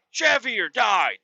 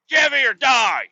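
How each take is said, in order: First: Shout. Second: Shouted high and loud like a fan chant; chanted, yell the team slogan all in; chanted, diehard fan war cry. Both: Retold or imitated. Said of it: "back then I was like".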